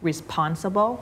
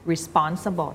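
First: First "responsible" with a puff of air on P; wrong aspirated P. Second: "responsible" with a tight P, no air after it; unaspirated P. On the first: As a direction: let air burst out on the P of "responsible". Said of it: "ต่างกันยังไงคะ". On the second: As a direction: keep the P in "responsible" free of any puff. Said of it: "ทำให้มันเป็นเสียงปอปลา". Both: Shown as a demonstration.

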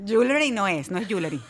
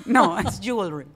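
First: "jewelry" mispronounced as "YOO-leh-ree"; "jewelry" with a full "le" in the middle; wrong pronunciation. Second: "jewelry" said slowly as "JOOL-ree"; slow, emphatic "jewelry", no middle vowel; correct pronunciation. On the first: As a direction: say "jewelry" in three syllables, Spanish-style. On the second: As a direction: model "jewelry" in two English syllables. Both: Shown as a demonstration.

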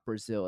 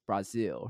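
First: Brazil as "bruh-ZIL"; English pronunciation. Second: Brazil as "brah-ZEEL"; Portuguese-style pronunciation. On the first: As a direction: say Brazil with a reduced first vowel. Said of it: "say it as close to". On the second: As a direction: open the first vowel of Brazil. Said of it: "the Portuguese pronunciation as possible". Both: Shown as a demonstration.

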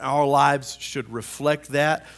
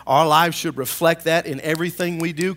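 First: Said in the usual way. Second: Louder, emphatic preacher delivery; preaching. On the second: Real, not acted. Pastor urging church family to live it, preaching. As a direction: drive it home to the congregation. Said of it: "Let me preach".

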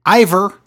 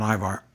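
First: "Ivar" ending in a weak -er, louder; "Ivar" called out with a reduced last vowel; mispronounced name. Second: "Ivar" ending in a full -ar, softer; "Ivar" quietly, with an open last vowel; corrective aside. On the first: Retold or imitated. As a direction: say "Ivar" as "EYE-ver". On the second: Shown as a demonstration. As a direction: say "Ivar" as "EYE-var", lower. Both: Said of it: "that's not right".

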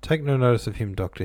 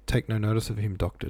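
First: Impatient. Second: Said in the usual way. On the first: A narrator's reading. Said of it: "rather impatiently". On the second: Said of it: "Who did he say that, though, to?".

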